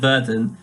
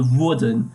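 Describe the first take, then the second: First: Said in the usual way. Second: "wurden" stressed as "würden", with umlaut; extra emphasis. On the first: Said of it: "instead of werden". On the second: Shown as a demonstration. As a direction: lean on the first vowel of "wurden". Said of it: "putting extra emphasis on the wurden".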